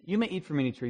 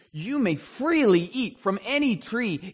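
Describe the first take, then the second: First: Said in the usual way. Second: "freely" drawn out high and slow, hit hard; stress on freely. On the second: Shown as a demonstration. Teacher to class, stressing "freely" slowly and higher. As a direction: lean on "freely" to show God's generosity. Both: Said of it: "but the emphasis is".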